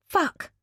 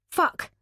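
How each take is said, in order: First: High, sharp startled yelp of Fuck; high, jolted curse of shock. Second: Said in the usual way. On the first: Acted. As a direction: jump out of your skin. Lauren startled, spilling her drink.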